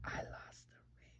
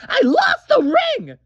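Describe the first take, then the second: First: Ashamed whisper, barely voiced. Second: Much higher, loud crying shout; shouted confession. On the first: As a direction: whisper the confession. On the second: Acted. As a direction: blurt it out in a wail. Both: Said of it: "Still can't hear you".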